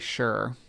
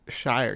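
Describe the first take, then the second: First: The suffix has a reduced 'sure' vowel. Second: The suffix has a full 'ire' vowel. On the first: The speaker calls it right. "You think you just say sure when it's run together" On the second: The speaker calls it wrong. "I don't think you say uh"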